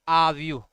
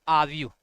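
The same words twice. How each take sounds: Both takes have the same delivery.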